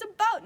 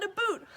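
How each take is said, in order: First: "a bout" high, loud and corrective; about, ow vowel. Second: "a boot" as the mocked Canadian about; raised, loud "a boot" with an oo sound; aboot, oo vowel. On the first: Retold or imitated. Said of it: "It's a bout, not a boot". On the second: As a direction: say "a boot" with a long OO, as in footwear. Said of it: "all of us talk with funny accents".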